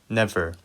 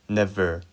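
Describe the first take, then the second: No difference in how they are said.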